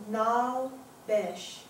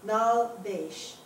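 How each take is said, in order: First: Besh with a short e, as in mesh; slow Nal Besh, second word rhyming with mesh; short-vowel pronunciation. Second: Besh with a long ay, like baysh; slow Nal Besh, second word as "baysh"; different pronunciation. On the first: Teacher reading Nal Besh aloud, Besh with short e. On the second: Teacher re-reading Nal Besh differently, Besh as baysh. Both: Shown as a demonstration. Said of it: "I'll say it even differently".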